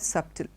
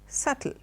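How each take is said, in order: First: The b sound is pronounced in the middle. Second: The b sound is left out entirely. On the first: The speaker calls it wrong. "the B being there, most of us pronounce it as subtle" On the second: The speaker calls it right. "the B is silent and the word is subtle"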